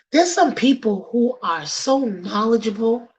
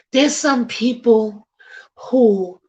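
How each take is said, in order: First: Said in the usual way. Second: Slow hushed whisper, leaning in. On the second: Real, not acted. Host drops to a whisper to stress the point. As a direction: breathe it like a secret.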